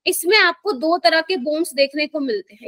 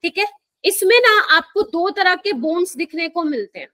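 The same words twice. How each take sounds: First: Deliberate, careful teacher pacing; slowly, for beginners. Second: Said in the usual way. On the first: Real, not acted. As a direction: lay out each word so the class can follow. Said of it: "धीरे धीरे बोल रही हूँ". (आराम से, धीरे धीरे) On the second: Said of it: "इसलिए धीरे धीरे बोल रही हूँ".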